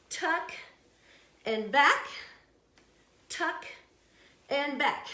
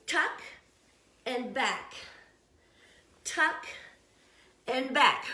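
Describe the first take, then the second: No difference in how they are said.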